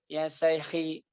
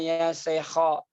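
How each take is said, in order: First: The last word ends in an i vowel. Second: The last word ends in an o vowel. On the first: "nggak boleh" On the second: "nggak boleh"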